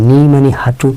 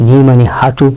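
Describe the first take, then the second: No difference in how they are said.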